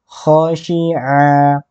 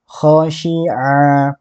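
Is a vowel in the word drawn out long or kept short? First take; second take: short; short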